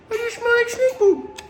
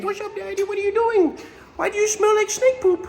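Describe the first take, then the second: First: Even higher squeaky otter voice; otter's voice, higher. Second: High squeaky little otter voice; otter's voice. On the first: Keeper voicing the otter teasing him about snake poop, squeakier. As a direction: push the otter voice up further. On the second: Keeper voicing what the otter says to him, high squeaky voice. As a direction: voice the otter as a cheeky little critter. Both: Pretend. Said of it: "He's just saying".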